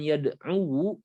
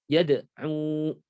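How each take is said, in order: First: The word ends with an extra -wu syllable. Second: The word ends on a short -u sound. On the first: The speaker calls it wrong. "tidak diucapkan yad'u, sebabnya itu adalah thiqal, berat" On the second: The speaker calls it right. "bilang saja yad'u"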